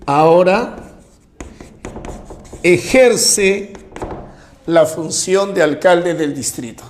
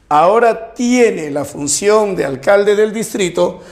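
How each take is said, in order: First: Slow down and let "ejerce" stand alone between pauses; stress on ejerce. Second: Said in the usual way. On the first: Shown as a demonstration. Teacher to students, spotlighting "ejerce" with pauses. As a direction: pause before and after "ejerce" to set it apart. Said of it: "mejor sería decir". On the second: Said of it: "en lugar de decir".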